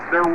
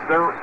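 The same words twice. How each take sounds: The two takes are said the same way.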